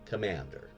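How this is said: The word is said in an American accent. "I typically use the American Commander"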